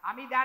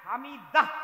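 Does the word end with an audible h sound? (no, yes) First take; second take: no; yes. First: The word ends in a plain vowel, no h. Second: The word ends with an audible h sound. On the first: The speaker calls it wrong. "হামিদা না" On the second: The speaker calls it right. "একটা হ আছে"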